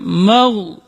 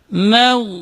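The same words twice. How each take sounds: First: The m is pronounced thick and heavy. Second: The m is pronounced thin and light. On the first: The speaker calls it wrong. "ketika mim ditebalkan ... Itu salah" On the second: The speaker calls it right. "Tapi harus dibaca"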